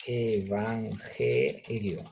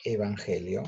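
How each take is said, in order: First: EVANGELIO very slowly, split e-van-ge-lio; syllable by syllable. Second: Said in the usual way. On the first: Shown as a demonstration. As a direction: stretch out each syllable of EVANGELIO with small breaks. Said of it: "es una emisión de voz". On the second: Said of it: "yo digo la palabra".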